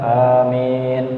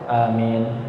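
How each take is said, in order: First: The word is drawn out slowly. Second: The word is said quickly. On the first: "amin agak panjang" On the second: "cuma amin"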